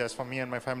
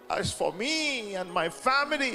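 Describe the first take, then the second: First: It is said flatly, like a rote phrase. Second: It is said with awe and feeling. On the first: The words are recited out of habit. The speaker calls it wrong. "We by heart the scripture and say it for a cliche" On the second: The words are a heartfelt commitment. The speaker calls it right. "Look at Joshua with awe"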